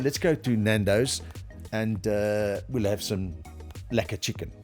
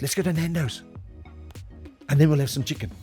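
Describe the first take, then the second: First: The gap is filled with an "uh" sound. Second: The gap is a silent pause instead. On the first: The listener loses interest. The speaker calls it wrong. "don't say um, ... you've almost lost me there" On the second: It adds drama and pulls the listener in. The speaker calls it right. "leave silence ... that pause, it gives a bit of drama"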